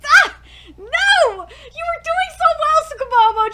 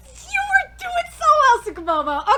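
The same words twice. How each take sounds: First: High, loud despairing reproach; exasperated wail. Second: High, loud teary reproach; disappointed wail. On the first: Fan wailing at the anime, exasperated. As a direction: cry out in frustration. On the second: Fan scolding the anime, teary disappointed wail. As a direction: wail at a letdown. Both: Real, not acted.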